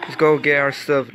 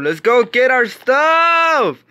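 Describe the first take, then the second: First: Said in the usual way. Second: "Let's go get our stuff!" louder and slow, stretched out; rally the team, "stuff" drawn out; rallying shout. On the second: Real, not acted. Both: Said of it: "repeated, building up".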